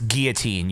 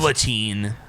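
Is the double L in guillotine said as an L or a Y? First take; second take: Y; L. First: The double L is said as a Y sound. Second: The double L is said as an L sound. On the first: The speaker calls it right. "the double L is pronounced like a Y" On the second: The speaker calls it wrong. "so many people say fucking"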